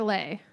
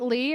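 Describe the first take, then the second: First: The vowel sounds like the one in 'say'. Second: The vowel sounds like the one in 'see'. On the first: "is it Lee or Lay?" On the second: "is it Lee or Lay?"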